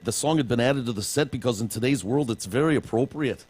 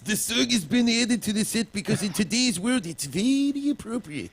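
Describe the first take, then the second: First: It is spoken in an Irish-sounding accent. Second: It is spoken in a put-on Chinese accent. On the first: "you're going Irish there" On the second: "I'll try it in Chinese"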